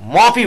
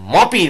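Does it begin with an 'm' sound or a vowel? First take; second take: m sound; m sound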